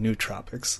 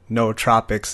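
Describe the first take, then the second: First: The first syllable sounds like 'new'. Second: The first syllable sounds like 'no'. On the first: The speaker calls it wrong. "rather than" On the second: The speaker calls it right. "is how it's pronounced"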